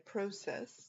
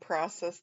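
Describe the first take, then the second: First: It is said in a Canadian accent. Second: It is said in an American accent. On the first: "they say process. That's how you know somebody's from Canada" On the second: "instead of saying process"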